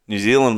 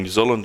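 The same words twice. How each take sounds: First: "New Zealand" with a long ee in "Zealand"; Aussie pronunciation. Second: "New Zealand" with a clipped short i in "Zealand"; mimicked Kiwi pronunciation. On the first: Shown as a demonstration. Host showing his mate the Aussie way, "New Zealand" with long ee. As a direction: say "New Zealand" as "Nyoo Zee-land". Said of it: "If you're Aussie". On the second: Host mimicking his mate, "New Zealand" said Kiwi-style. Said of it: "you're saying New Zealand".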